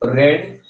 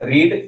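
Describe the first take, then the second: First: The word has a short 'e' vowel, like 'red'. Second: The word has a long 'ee' vowel, like 'reed'. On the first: The speaker calls it wrong. "रेड की जगह" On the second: The speaker calls it right. "यहाँ पे रीड का pronunciation होगा"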